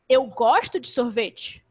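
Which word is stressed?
eu. The stress falls on the word eu. It is me, not someone else, who likes it. "Não é o fulano, sou eu"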